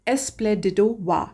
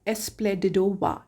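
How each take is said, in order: No difference in how they are said.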